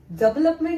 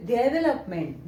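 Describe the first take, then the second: First: डेवलपमेंट cut down to "dub-lup-ment"; mispronounced development. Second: डेवलपमेंट with a clear "de" and every vowel sounded; correctly pronounced development. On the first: Teacher showing students the wrong reading, डेवलपमेंट mispronounced as "dub-lup-ment". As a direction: say डेवलपमेंट wrongly, "duh" for "de", middle vowel dropped. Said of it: "डेवलपमेंट नहीं होता". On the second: Teacher correcting the misreading for students, डेवलपमेंट pronounced "de-ve-lup-ment". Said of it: "जब इसको सही pronounce करेंगे". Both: Shown as a demonstration.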